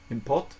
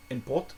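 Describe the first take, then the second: No difference in how they are said.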